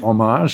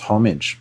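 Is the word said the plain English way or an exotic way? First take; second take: exotic; plain English. First: It is said in an exotic, foreign-sounding way. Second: It is said in a plain English way. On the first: The speaker calls it wrong. "we like to make it into homage as if it's a bit more exotic" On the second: The speaker calls it right. "I think the word is homage"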